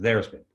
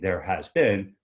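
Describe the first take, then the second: First: It is said quickly with has shortened. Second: Every word is said in full. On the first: "somebody just said it real fast" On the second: "Instead of saying there has been"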